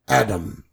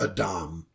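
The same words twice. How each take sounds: First: Adam is said with the modern pronunciation. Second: Adam is said with the older pronunciation.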